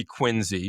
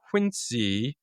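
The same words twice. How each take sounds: First: Quincy said with a buzzing Z, QUIN-zee; voiced Z in the middle of Quincy; Z pronunciation. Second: Quincy said with a hissed S, QUIN-see; unvoiced S in the middle of Quincy; S pronunciation. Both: Shown as a demonstration. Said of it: "maybe only Massachusetts has Quincy".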